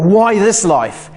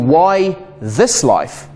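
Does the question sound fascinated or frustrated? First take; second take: frustrated; fascinated. First: It is said with a frustrated tone. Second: It is said with a fascinated tone. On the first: Life is a burden to be explained. "from something I call frustration" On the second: Life is an opportunity to explore. "to fascination"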